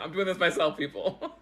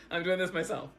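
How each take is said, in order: First: Laughing out the words, loud; amused self-mocking laugh on the words. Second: Said in the usual way. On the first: Real, not acted. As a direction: laugh through the line at herself. Laughing at her own camera fix.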